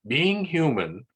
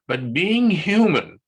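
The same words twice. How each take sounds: First: "being" stressed less strongly; lighter stress. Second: "being" hit high and loud; "being" stressed, higher and louder. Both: Shown as a demonstration.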